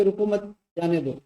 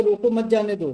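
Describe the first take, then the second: First: "रुको मत" as one group, break, then "जाने दो"; pause after मत. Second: "रोको मत जाने दो" run together without a break after मत; stress and pause demo. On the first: Teacher showing how stress changes a sentence, pause after मत. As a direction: split the phrase after मत, before जाने दो. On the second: Teacher showing how stress changes a sentence, demonstrative phrasing. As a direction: keep "मत जाने दो" joined as one phrase. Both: Shown as a demonstration. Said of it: "कहाँ पर हमें बल देना है".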